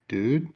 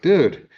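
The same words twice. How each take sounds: First: It sounds alarmed and questioning. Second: It sounds impatient and reproachful. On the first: Something frightening has just been revealed. "there's an axe murder in the closet" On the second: Someone is late and expected. "you're late for a party"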